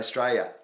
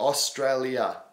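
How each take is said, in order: First: The word is mumbled with syllables swallowed. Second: The word is pronounced fully and clearly.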